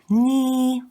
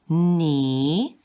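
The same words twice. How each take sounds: First: The pitch stays high and level. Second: The pitch rises from middle to high. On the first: "ni will be pronounced with the first accent. It will be ni" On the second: "The next one is ni"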